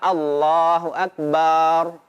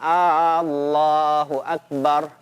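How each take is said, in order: First: The ba syllable of Akbar is drawn out long. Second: The opening A of Allah is drawn out long. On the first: It means God is a drum. "membaca huruf ba secara mat panjang" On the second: It becomes a question whether God is great. "A-nya dipanjangkan"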